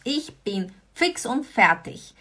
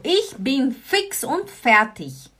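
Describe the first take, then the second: First: Ich bin fix und fertig repeated, a little slow; repeated model phrase. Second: Slow, careful ich bin fix und fertig; slow model phrase. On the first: Teacher repeating the expression to students. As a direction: repeat it clearly. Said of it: "Was bedeutet das?". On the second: Teacher slowly modelling the expression. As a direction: give it slowly for learners. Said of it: "Gut, also". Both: Shown as a demonstration.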